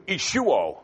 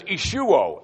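First: Ishuo said slowly as ee-shoo-oh, falling; Greek ishuo. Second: Ishuo said as ee-shoo-oh with a falling end; Greek ishuo. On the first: Preacher reading the Greek ishuo to the congregation, said ee-shoo-oh. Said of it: "interesting in its construction". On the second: Preacher repeating Paul's Greek Ishuo, ee-shoo-oh, falling. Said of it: "He says". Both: Shown as a demonstration.

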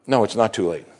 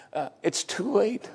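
First: Said in the usual way. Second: Slow, high, hesitant doubter; mock doubter drawling "it's too late"; doubter's voice. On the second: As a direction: sigh it out like someone who has given up. Doubter's objection, then rebuttal.

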